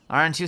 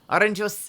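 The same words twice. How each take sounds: First: It is said in the speaker's normal accent. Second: It is said in an odd, random accent. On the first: "Let's try that again" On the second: "I'm giving her a, a random accent"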